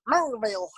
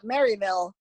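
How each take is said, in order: First: The name is said in a local backwoods way. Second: The name is said in a standard way.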